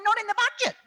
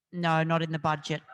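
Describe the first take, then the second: First: Much higher and louder, laughing through "Not in the budget"; mock the refusal while laughing; incredulous, laughing "Not in the budget"; mocking laughing quote. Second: Said in the usual way.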